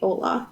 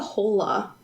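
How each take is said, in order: First: The word begins directly with a vowel. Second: The word begins with an audible H sound. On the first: The speaker calls it wrong. "They don't say Ola" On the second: The speaker calls it right. "They say Hola. There's definitely an H sound"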